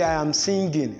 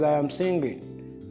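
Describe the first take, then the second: First: The ng is not said as the eng sound. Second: The ng is said as one eng nasal sound. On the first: The speaker calls it wrong. "So you don't say I am singing" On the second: The speaker calls it right. "Rather it is I am singing"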